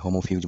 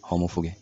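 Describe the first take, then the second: First: It is pronounced like an English word. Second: It is pronounced like a Latin word. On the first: The speaker calls it wrong. "আগের ভিডিওতে আমি এটাকে মেবি হোমোফিউজ বলেছিলাম, কিন্তু এটা তো ইংলিশ ওয়ার্ড না" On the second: The speaker calls it right. "Latin প্রোনাউন্সিয়েশনটা হবে হোমোফুগে"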